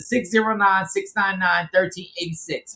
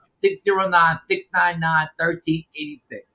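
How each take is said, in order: First: It is said at a quicker pace. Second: It is said slowly and deliberately.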